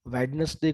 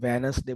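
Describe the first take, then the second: First: A clear d sound is pronounced. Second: The d is dropped, leaving a plain n. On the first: "कुछ लोग बोलते हैं" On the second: "कुछ लोग डी निकाल देते हैं"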